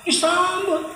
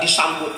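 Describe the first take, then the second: First: Disambut said much higher, drawn out in mock awe; high sing-song Disambut; high mock welcome. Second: Said in the usual way. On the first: Shown as a demonstration. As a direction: repeat Disambut up high, impressed.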